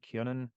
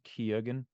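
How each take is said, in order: First: The name is said in its Irish pronunciation. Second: The name is said in its common anglicized pronunciation. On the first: This is the original native form of the name. "supposed to be pronounced is like Keonan or something. That's the Irish pronunciation" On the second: This is how most people say the name. "everyone says Keoghan"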